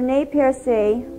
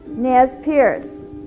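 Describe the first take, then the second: First: The name is said with a French pronunciation. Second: The name is said with an English pronunciation. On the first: "The French pronunciation of Nez Percé" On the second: "English-speaking settlers who called them"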